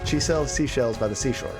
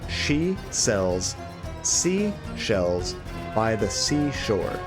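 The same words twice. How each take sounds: First: The phrase is spoken quickly. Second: The phrase is spoken slowly and carefully.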